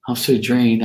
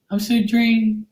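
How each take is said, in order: First: Said in the usual way. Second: Very high mocking voice; mock whiny readers. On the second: Mimicking readers who claim exhaustion, mock whining. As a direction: put on a pitched-up, feeble complaint. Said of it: "How many of these readers that do".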